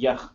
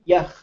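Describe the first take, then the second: First: The word is said with a low tone. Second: The word is said with a high tone. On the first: "low tone" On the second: "as opposed to yach, to be like something"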